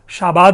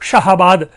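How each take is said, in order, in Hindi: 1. बीच में कोई h ध्वनि सुनाई नहीं देती। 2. बीच में h ध्वनि सुनाई देती है।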